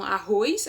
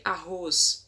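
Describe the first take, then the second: First: "arroz" said as "arroiz", with an i glide before the final s; colloquial arroiz. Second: Said in the usual way. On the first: Shown as a demonstration. Teacher showing the popular form, "arroz" as "arroiz". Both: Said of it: "ao invés de".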